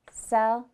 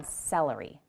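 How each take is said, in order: First: "Celery" in three separate beats with long gaps; split into syllables. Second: Said in the usual way. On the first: Shown as a demonstration. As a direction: break "Celery" apart syllable by syllable. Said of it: "clap how many syllables you hear".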